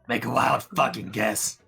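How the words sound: It is said in a put-on ghoul voice.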